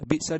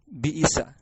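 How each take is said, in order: First: The second consonant is silent, without a vowel. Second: The second consonant is followed by an i vowel. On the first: "bikasrin fasukunin, dengan mengkasrah dan mensukun" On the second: "bikasri awalihima wa sanihima"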